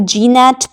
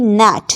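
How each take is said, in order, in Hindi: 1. n से पहले g की आवाज़ सुनाई देती है। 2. n से पहले g की कोई आवाज़ सुनाई नहीं देती। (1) "बहुत सारे लोग नैट पढ़ेंगे या फिर जी नैट पढ़ सकते हैं" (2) "सही प्रोनाउंसिएशन इसकी है नैट"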